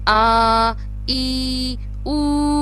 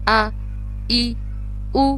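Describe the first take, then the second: First: The vowels are stretched out long. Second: The vowels are short and only lightly clipped. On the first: The speaker calls it wrong. "ना तो हम करेंगे" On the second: The speaker calls it right. "इसको पढ़ने का तरीका है"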